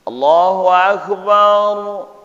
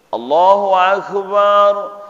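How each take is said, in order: First: The 'ba' syllable in Akbar is short. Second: The 'ba' syllable in Akbar is drawn out long. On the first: The speaker calls it right. "yang pertama" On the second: The speaker calls it wrong. "panjang ba yang kedua"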